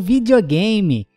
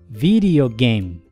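First: The word is said with Portuguese pronunciation. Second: The word is said with English pronunciation. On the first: "A escrita no português e no inglês é igual, mas a forma de pronunciar é diferente" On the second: "A pronúncia de videogame em inglês é videogame"

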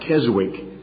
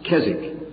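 First: The W in the middle is sounded. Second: The W in the middle is silent. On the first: The speaker calls it wrong. "Most Americans pronounce that Keswick" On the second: The speaker calls it right. "the W is silent, it's Keswick"

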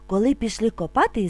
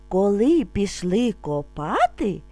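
First: It is spoken a little faster. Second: It is spoken calmly and slowly. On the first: "А тепер трошки швидше" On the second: "Спочатку ми будемо вимовляти спокійно, не спіша"

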